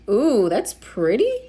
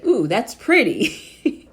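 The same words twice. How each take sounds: First: The voice rises at the end like a question. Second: The voice falls at the end like a statement. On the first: It sounds like a question. The speaker calls it wrong. "that sounded like a question" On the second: It is a plain statement of admiration. The speaker calls it right. "I meant to say"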